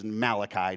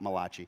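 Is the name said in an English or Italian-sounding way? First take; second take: English; Italian. First: The name is said with a plain English pronunciation. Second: The name is said with an Italian-sounding pronunciation. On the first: The speaker calls it right. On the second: The speaker calls it wrong. "not Malachi"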